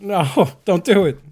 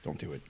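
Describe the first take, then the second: First: Loud, slow, laughing no; laughing shout of dread; loud laughing plea. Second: Quiet pleading. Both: Real, not acted. Pleading with game character falling.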